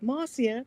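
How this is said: The name is said in a South African accent.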